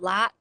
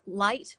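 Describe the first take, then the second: First: The word is said in a Southern accent. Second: The word is said in a plain accent. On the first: "would be light" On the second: "there's ways of saying like light"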